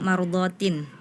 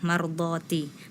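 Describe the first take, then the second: First: The word ends with an added N sound. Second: The word ends on a short I vowel. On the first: The speaker calls it wrong. "tadi salah harokat, dibacanya" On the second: The speaker calls it right. "yang benar itu harokatnya kasroh"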